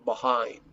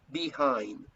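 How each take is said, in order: First: The first syllable is short and reduced. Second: The first syllable sounds like full 'bee'. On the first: "La mayoría en Norteamérica pronuncian behind" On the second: "be, como be"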